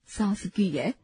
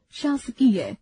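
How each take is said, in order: First: शासकीय said as सासकीय with s instead of sh; wrong pronunciation. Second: Said in the usual way. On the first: Shown as a demonstration. Teacher showing the class the common slip. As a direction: start शासकीय with a plain s: सासकीय. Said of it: "अशुद्ध". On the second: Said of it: "शुद्ध".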